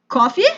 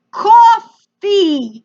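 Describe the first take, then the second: First: Put-on questioning, lightly Russian-accented offer; mild Russian pronunciation. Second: COFFEE in a loud, drawn-out mock American accent; attempted American accent. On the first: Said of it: "mild Russian pronunciation of coffee". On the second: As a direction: imitate a foreigner trying hard at an American accent. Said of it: "tries to say it with an American accent".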